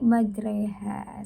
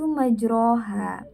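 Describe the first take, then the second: First: The vowel after r is tilted toward e. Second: The vowel after r is a full open a. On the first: It follows the special recitation rule. "kita miringkan dari bacaan fathah agak ke kasroh" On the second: It follows the written vowel mark. "kalau dari tulisannya itu majroha"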